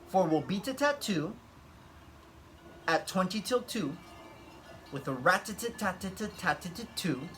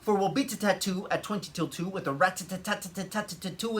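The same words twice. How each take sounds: First: It is said slowly. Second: It is said fast.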